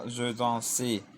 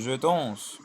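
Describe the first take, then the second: First: The final e is sounded and stressed. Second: The final e is silent and unstressed. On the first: The speaker calls it wrong. "et pas" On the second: The speaker calls it right. "on n'accentue pas le E sans accent"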